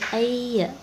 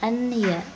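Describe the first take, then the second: First: The n sound merges into the following y. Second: The n sound is pronounced before the y. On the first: The speaker calls it right. "nunnya tidak dibaca" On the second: The speaker calls it wrong. "bukan an ya"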